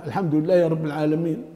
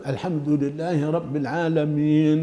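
First: "الحمد لله رب العالمين" quickly, final n of "العالمين" lost; swallowed final nun. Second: "الحمد لله رب العالمين" measured, with a long "iin" ending; clear final nun. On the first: Teacher imitating people who hide the last letter, final nun swallowed. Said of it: "يخفون هذا". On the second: Teacher modelling the fix, final nun clearly sounded. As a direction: hold "العالمين" and sound its n fully. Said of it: "لابد من إظهار". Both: Shown as a demonstration.

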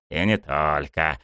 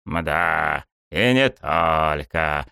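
First: Said in the usual way. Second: Slow, drawn-out musing; thoughtful. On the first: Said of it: "подмигнул он вдруг мне". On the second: A narrator's reading. Watching the players leave, slow and thoughtful. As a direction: draw it out, lost in thought. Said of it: "задумчиво продолжил он".

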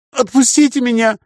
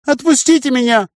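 First: High chirpy pleading voice; chirping creature. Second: High chirpy pleading voice, far off; chirping creature. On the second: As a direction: chirp it again, higher and pleading. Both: A narrator's reading. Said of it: "прощебетала тварина".

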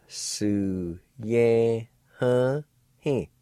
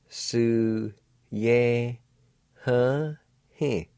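No difference in how they are said.

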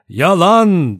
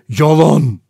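First: Loud, higher cry of outrage; shouted denial. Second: Loud, muffled, choked outburst. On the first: General MacArthur protesting the judge's accusations, shouting. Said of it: "diye bağırdı". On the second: Rogers denying the accusation, in a muffled voice. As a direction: force it out in a choked voice. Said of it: "Rogers boğuk bir sesle". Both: A narrator's reading.

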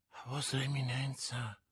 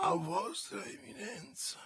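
First: Murmured question, much softer; a stunned soft murmur. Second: Whispered echo, higher; a frightened breathless whisper. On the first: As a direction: breathe it out, barely voiced. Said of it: "mormorò Bonacieux". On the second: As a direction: whisper it in dread. Echoes the title in awe. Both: A narrator's reading.

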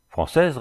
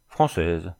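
First: Higher, rising echo question; openly surprised. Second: Said in the usual way. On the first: A narrator's reading. Captor echoing the prisoner's answer, surprised. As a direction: repeat Française in disbelief, pitched up. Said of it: "répéta Jésus sans cacher sa surprise".

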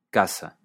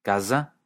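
First: Casa with a crisp hissed s; voiceless s. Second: Casa said with a buzzing z, kaza; voiced s. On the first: Teacher contrasting Catalan word pairs, voiceless s. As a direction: keep the s in casa sharp and voiceless. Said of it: "pero casa es un instrumento". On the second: Teacher contrasting Catalan word pairs, voiced s. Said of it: "casa significa el lugar". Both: Shown as a demonstration.

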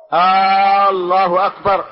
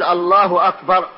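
First: "الله" opened with a long, loud drawn-out "آه"; stretched hamza. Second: Said in the usual way. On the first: Shown as a demonstration. Teacher showing students the forbidden takbir, "الله" with stretched opening hamza. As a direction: draw out the first vowel of "الله" into a long "aaa". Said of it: "أن يمد الهمزة". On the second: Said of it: "فلنقول".

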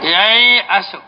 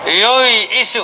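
First: ييأس said yay-as with an open a after the glottal stop; yay'as with a. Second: ييئس said yu-is, rounded u first and the hamza on i; yu'is with u and i. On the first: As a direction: say ييأس as yay'as, the hamza on a clear a. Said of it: "أنا سأكتب الأول ييأس". (انطق ييأس بفتح الياء والهمزة: يَيْأَس) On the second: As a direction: say ييئس as yu'is, the passive form, u then i. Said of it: "لأن الفعل المضموم الذي هو". (انطق ييئس بضم الياء وكسر الهمزة: يُيْئِس) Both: Shown as a demonstration.

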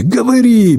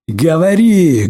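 First: High, loud yelled order; shouted command. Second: Slow demanding. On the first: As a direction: bark the word говори. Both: A narrator's reading. Interrogator beating, repeating.

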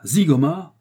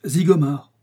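First: Loud, high, rising astonished question; startled exclamation. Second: Said in the usual way. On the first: A narrator's reading. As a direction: echo the name in shock. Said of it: "Le détective américain sursauta". (cri de surprise interrogatif)

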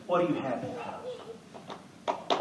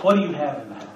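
First: Soft prophet question. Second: Said in the usual way. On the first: Acted.

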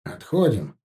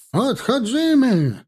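First: Said in the usual way. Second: High, drawn-out Polish retreat call; shouted foreign command. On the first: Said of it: "польский". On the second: A narrator's reading. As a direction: cry the retreat slowly across the field in Polish. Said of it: "команда на чужом языке". (протяжный высокий крик по-польски)

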